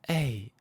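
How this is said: The vowel is said with a breathy voice.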